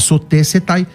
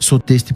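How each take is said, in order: First: The ending keeps an older-style full pronunciation. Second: The ending uses the modern Greek pronunciation. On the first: "alguns vão falar" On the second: "a pronúncia moderna seria então aqui soteste por causa do ditongo"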